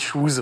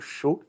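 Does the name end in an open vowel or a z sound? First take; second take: z sound; open vowel. First: The name ends with a buzzing z sound. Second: The name ends on an open vowel sound. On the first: The speaker calls it wrong. "ça s'écrit C H O O Z, j'ai dit Choose" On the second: The speaker calls it right. "désolé, pardon, les habitants de Chaux"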